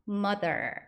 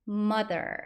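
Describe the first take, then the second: No difference in how they are said.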